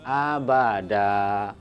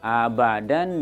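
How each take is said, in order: First: The word ends with a long drawn-out vowel. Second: The word ends with a short vowel plus n. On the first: The reading stops at the word. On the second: The reading continues past the word.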